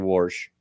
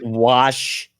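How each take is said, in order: First: The word has a regional Hoosier pronunciation. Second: The word has a standard pronunciation. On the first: "I say wash" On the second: "instead of"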